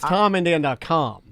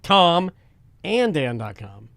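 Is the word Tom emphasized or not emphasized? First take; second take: not emphasized; emphasized. First: Tom gets no special emphasis. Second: Tom is said with strong emphasis.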